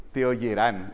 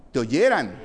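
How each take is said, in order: First: Oyerán stressed on its last syllable; oyerán with the stress at the end; accent on the A. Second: Oyeran stressed on YE, not on the last syllable; corrected stress. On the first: Real, not acted. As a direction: lean on the final -rán of oyerán. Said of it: "Sí, lleva acento en la A". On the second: Shown as a demonstration. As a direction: hit the middle of oyeran, o-YE-ran. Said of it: "No, no".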